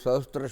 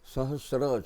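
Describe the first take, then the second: First: A 't' sound comes before the 'r'. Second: No 't' sound comes before the 'r'. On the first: The speaker calls it wrong. "સહસ્ત્ર શબ્દ આપણે ખોટો બોલીએ છીએ" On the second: The speaker calls it right. "સહસ્ર છે. ... ત નહીં આવે"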